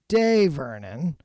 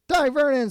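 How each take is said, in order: First: The first name rhymes with 'may'. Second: The first name rhymes with 'my'. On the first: This is the West Coast way of saying it. The speaker calls it right. "which I believe is the way they pronounce it on the West Coast, and probably the correct way" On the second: This is the East Coast way of saying it. The speaker calls it wrong. "I say Die Vernon because I'm originally from the East Coast"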